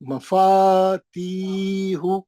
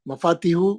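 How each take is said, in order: First: The vowel in 'ti' is held long. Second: The vowel in 'ti' is short. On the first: The speaker calls it right. "ती खींचना है, दो हरकत" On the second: The speaker calls it wrong. "मफातीहु गलत है"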